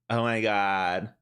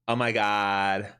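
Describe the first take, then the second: The two takes are said the same way.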